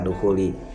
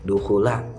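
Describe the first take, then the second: First: The word ends with an i vowel. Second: The word ends with an a vowel. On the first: The speaker calls it wrong. "Ini malah dibaca dukhuli" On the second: The speaker calls it right. "Harusnya itu dibacanya apa? Dukhula"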